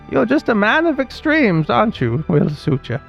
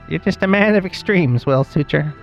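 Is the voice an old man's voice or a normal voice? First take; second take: old man; normal voice. First: It is said in an old man's voice. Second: It is said in a normal voice.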